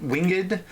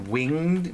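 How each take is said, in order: First: Winged said as WING-id, higher pitched; old-style winged, two beats: WING-ed; two-syllable winged. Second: Said in the usual way. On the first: Shown as a demonstration. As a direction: sound out the -ed in winged as its own syllable.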